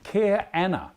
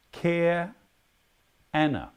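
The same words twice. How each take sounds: First: "Care Anna" higher and loud, falling on care; foreign greeting. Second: "Care" rising, pause, then "Anna" falling; split greeting. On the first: Quizmaster demonstrating a greeting to the players, high and loud. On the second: Quizmaster repeating the greeting slowly, broken in two. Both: Shown as a demonstration. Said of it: "When you greet someone with".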